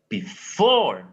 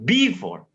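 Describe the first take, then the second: First: The stress is on the second syllable. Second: The stress is on the first syllable. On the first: The speaker calls it right. "for, we have to give more intensity" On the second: The speaker calls it wrong. "not before"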